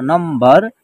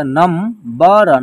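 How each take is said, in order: First: Said in the usual way. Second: "नम, बर" split with a pause; "नम, बर" as two separate syllables; syllable-by-syllable breakdown. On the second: Shown as a demonstration. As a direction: break the word into "नम" and "बर". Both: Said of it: "यहाँ इसका उच्चारण आधा म के रूप में होगा".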